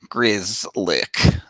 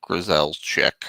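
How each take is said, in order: First: The name is said short, like 'Grizzlick'. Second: The name is said longer, like 'Grizelczyk'. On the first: The speaker calls it right. "that's how you say it" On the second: The speaker calls it wrong. "not Grizelczyk or whatever"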